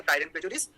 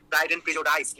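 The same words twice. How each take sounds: First: Said in the usual way. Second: "Prejudice" wrongly ending like "dice"; friend's mispronunciation. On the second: Retold or imitated. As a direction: say "Prejudice" as "pre-jo-DICE", imitating a beginner memorizing. ("Prejudice"-এর শেষটা ভুল করে "ডাইস" উচ্চারণে) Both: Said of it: "তো actual উচ্চারণটা হচ্ছে".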